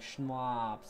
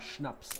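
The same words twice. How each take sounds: First: The a vowel is drawn out, American-style. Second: The a vowel is short and clipped. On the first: The speaker calls it wrong. "They say" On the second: The speaker calls it right. "the concept of a short A. As in"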